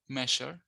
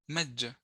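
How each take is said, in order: First: The middle consonant is an sh sound. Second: The middle consonant is a j sound. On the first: "Sometimes it's pronounced with a phoneme sh" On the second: "or j"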